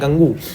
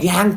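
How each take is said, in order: First: The word ends with an added 'oo' vowel. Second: The word ends on the 'ng' sound. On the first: The speaker calls it wrong. "कुछ लोग pronounce करते हैं पता क्या, गंगू" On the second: The speaker calls it right. "ये गंगू भी नहीं है, ये है भैया गैंग"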